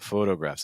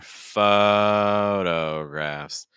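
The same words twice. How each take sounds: First: The O vowel is closed and tight. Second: The O vowel is open with more space. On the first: The speaker calls it wrong. "So it's not photographs" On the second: The speaker calls it right. "it's more photographs"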